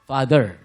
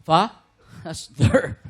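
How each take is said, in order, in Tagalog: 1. Isang tuloy-tuloy na bigkas ang salita. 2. Nahahati ng hinga ang salita sa gitna. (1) "Dapat hinga ka before ng father" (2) "Hindi yung fa-stir. Mag-iiba ng meaning"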